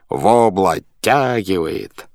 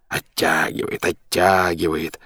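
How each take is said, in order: First: Slow, stretched-out chant of a crowd; drawn-out cry. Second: Gentle cooing. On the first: Dancing islanders cry out round the vobla giver, drawn-out call. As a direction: call it out slowly, stretching the words. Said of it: "приплясывали вокруг него и кричали". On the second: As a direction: coo it, drawing out the repeat. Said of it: "ворковали они". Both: A narrator's reading.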